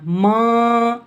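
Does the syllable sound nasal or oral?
nasal. The syllable is said through the nose. The speaker calls it wrong. "हमने इसे इस तरह नहीं पढ़ना। ... ये गलत तरीका है।"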